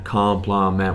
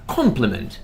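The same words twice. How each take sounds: First: It is said in an American accent. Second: It is said in a British accent.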